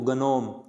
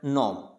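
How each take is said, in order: First: The word starts with a g sound. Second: The word starts with an n sound. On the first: The speaker calls it wrong. "इसको गनोम नहीं बोलना" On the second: The speaker calls it right. "इसको क्या बोलना है, नॉम"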